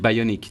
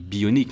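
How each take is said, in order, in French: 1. Le mot est prononcé avec un accent anglais. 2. Le mot est prononcé avec un accent français. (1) "je veux faire mon malin avec un accent euh, anglais qui déchire" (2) "en français, on dit bionique"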